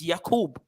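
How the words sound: The name ends with a b sound. This is the traditional Hebrew way of saying it. "But in traditional Hebrew, it's Yakub"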